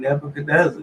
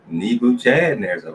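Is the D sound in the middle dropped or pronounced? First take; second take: dropped; pronounced. First: The middle D sound is left out. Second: The middle D sound is clearly said. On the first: Other people say it this way. The speaker calls it wrong. "they ain't even pronouncing the D" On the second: It follows the spelling. The speaker calls it right. "That's Nebuchadnezzar"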